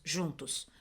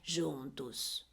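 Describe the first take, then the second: First: The word is said short and clipped. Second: The word is stretched out and lengthened. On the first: The speaker calls it right. "ela fala as palavras fechadas" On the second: The speaker calls it wrong. "Não é juntos"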